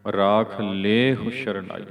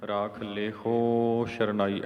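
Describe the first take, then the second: First: ਲੇਹੁ with long loud "lay", very short "hu"; firm slow model reading, short-ending ਲੇਹੁ; correct ਲੇਹੁ. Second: ਲੇਹੋ with a long dragged "ho" ending; slow counterexample, long final o in ਲੇਹੋ; wrong ਲੇਹੋ. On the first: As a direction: stretch le in ਲੇਹੁ and barely sound hu. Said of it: "ਏਦਾਂ ਪਾਠ ਕਰਨਾ ਹੈ". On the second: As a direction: misread it, stretching the ho of ਲੇਹੋ. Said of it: "ਏਦਾਂ ਨਹੀਂ ਪੜ੍ਹਨਾ". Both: Shown as a demonstration.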